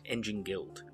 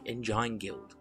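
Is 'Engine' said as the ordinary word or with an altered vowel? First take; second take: ordinary; altered. First: Engine sounds like the ordinary everyday word. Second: Engine is said with an altered, unusual vowel sound.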